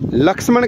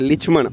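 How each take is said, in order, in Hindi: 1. पहले अक्षर में 'a' स्वर है। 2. पहले अक्षर में 'i' स्वर है। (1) "ये लक्ष्मण का अपन क्या बोलते हैं" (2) "यहाँ पर लक्ष्मण का क्या बोलते हैं"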